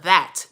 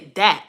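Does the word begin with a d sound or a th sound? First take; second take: th sound; d sound. First: The word begins with a th sound. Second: The word begins with a d sound. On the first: The speaker is speaking the way they know is correct. The speaker calls it right. "that, T H A T" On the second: The speaker is trying to fit in with others. The speaker calls it wrong. "dat, D A T"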